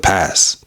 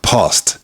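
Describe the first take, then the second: First: The final t sound is dropped. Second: The final t sound is pronounced.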